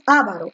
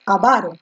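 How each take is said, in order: First: The stress is not on the second syllable. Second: The stress is on the second syllable. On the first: The speaker calls it wrong. "No es avaro" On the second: The speaker calls it right. "con la fuerza de voz en la va"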